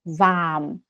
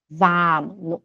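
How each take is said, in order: Both takes have the same delivery.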